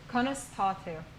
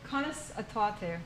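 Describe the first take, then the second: First: The initial a is merged into the previous word. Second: Every syllable is said, including the initial a.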